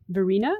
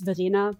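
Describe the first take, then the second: First: The name is said with an American accent. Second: The name is said with a German accent.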